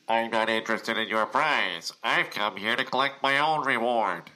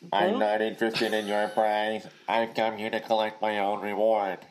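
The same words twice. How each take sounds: First: The voice sounds pinched and nasal. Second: The voice sounds flat and robotic.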